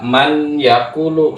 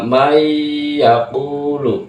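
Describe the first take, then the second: First: A clear n is heard before the y. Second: The n merges into a nasal y sound. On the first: The speaker calls it wrong. "Jangan dibaca man yakulu salah" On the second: The speaker calls it right. "Yang benar adalah may yakulu"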